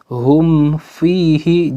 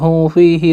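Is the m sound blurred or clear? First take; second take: clear; blurred. First: The m is pronounced clearly before the f. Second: The m is rushed and blurred into the f. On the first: The speaker calls it right. "harus dibaca jelas ya" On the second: The speaker calls it wrong. "dibaca dengan cepat namun tidak diperhatikan ... kayak ikhfa"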